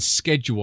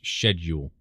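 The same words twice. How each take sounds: First: The word is said with an American pronunciation. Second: The word is said with a British pronunciation. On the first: "is what Americans say" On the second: "technically. Well, in English"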